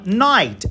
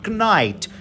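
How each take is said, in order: First: No K sound is heard before the N. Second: A K sound is heard before the N. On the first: The speaker calls it right. "E é bem assim que a gente fala" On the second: The speaker calls it wrong. "A gente não fala knight"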